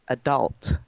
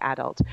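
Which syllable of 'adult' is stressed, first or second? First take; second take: second; first. First: The stress is on the second syllable. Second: The stress is on the first syllable. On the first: This is the American way. "they put the emphasis on the second part of the word" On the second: This is the English or South African way. "we put it on the first part of the word adult"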